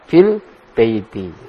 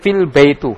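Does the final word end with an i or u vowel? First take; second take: i; u. First: The final word ends with an i vowel. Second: The final word ends with a u vowel. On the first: The speaker calls it right. "Ya benar apa? Fil baiti" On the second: The speaker calls it wrong. "Tidak boleh fil baitu. Salah"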